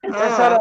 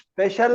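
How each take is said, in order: First: The middle consonant is an 's' sound. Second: The middle consonant is a 'sh' sound. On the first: This is a regional habit of one area. "వాళ్ళు స్పెషల్ అంటారు... షాను సగా ఉచ్చరిస్తారు" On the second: This is the standard way to say it. "UP వాళ్ళు స్పెషల్ అనరు"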